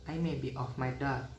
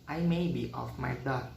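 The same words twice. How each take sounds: Both takes have the same delivery.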